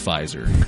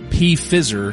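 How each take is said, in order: First: The P is silent and the word starts with F. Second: The P is pronounced before the F sound. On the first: The speaker calls it right. "I do, in fact, know it's Pfizer" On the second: The speaker calls it wrong. "he mispronounced Pfizer as P-Fizzer"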